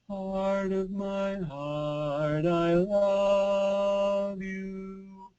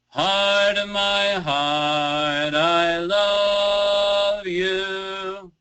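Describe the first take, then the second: First: The voice is firm, clear and light. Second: The voice is rich, loud and brassy.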